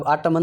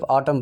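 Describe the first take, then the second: First: ऑटमन with the final n sounded; mock mistake ऑटमन, n pronounced; ऑटमन, three syllables ending in n; wrong reading. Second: ऑटम with a silent n; ऑटम, two syllables, no n; right reading. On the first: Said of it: "अब ऑटमन नहीं पढ़ेंगे". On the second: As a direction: correct ऑटम, ends on m. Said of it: "इसको सिर्फ ऑटम पढ़ेंगे।". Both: Shown as a demonstration.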